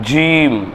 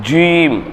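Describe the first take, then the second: First: The letter is said with rounded, pursed lips. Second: The letter is said with rounded, pursed lips.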